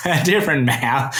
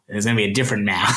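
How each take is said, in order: First: "a different Mao" said through a laugh, pitch up and louder; chuckling at his own pun on "Mao". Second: Said in the usual way. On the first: Real, not acted. Repeats the Mao joke laughing.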